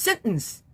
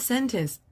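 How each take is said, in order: First: The middle T sound is dropped or softened. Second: The middle T sound is clearly pronounced. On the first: The speaker calls it wrong. "my teacher told me that this word should be pronounced" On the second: The speaker calls it right. "because if you pronounce the T"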